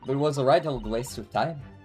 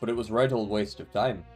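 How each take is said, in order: First: It is spoken in a put-on female voice. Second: It is spoken in a put-on male voice. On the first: "I'm trying to do a female voice" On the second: "a guy voice"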